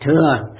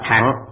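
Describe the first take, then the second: First: The syllable is pronounced thua. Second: The syllable is pronounced thang. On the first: This is the common modern reading of the word. The speaker calls it wrong. "hiện nay mọi người chúng ta đều đọc là thừa" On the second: This is the old reading of the word. The speaker calls it right. "Chữ thừa này thời xưa đọc là thẳng"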